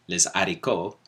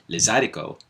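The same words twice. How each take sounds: First: The phrase is said slowly and carefully. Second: The phrase is said quickly and run together.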